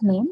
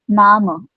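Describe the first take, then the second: First: The word is said like English 'name'. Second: The word is said with German vowels, like 'nah-meh'. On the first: The speaker calls it wrong. "not name" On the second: The speaker calls it right. "pronunciation is mein Name"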